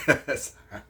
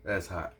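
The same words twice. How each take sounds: First: Laughing, higher and louder. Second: Said in the usual way. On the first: Real, not acted. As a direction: say it again through a laugh. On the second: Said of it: "laughs repeat".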